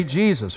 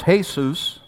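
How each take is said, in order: First: Said in the usual way. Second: Jesus said the Spanish way, heh-SOOS; Jesus with a Spanish h sound, heh-SOOS; Spanish Jesus, heh-SOOS, stress on SOOS. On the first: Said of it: "And we say Jesus". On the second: Shown as a demonstration. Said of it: "in Spanish".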